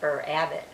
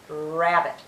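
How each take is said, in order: First: An extra 'er' vowel comes before the word. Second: The word starts directly with a growled r. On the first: The speaker calls it wrong. "We don't say er adio, er abbot" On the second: The speaker calls it right. "The letter R actually growls at you"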